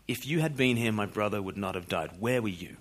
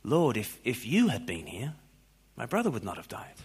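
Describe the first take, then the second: First: Understated accusing reproach, falling at the end; accusation. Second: Understated trusting plea, lifting on "here"; statement of faith. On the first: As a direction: quietly lay the blame on the listener. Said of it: "read that as an accusation". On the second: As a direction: say it softly as quiet belief, pausing midway. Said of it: "read it as a statement of faith". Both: Shown as a demonstration.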